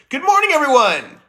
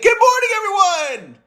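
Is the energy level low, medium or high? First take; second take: medium; high. First: It is said with moderate energy. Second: It is said with more energy.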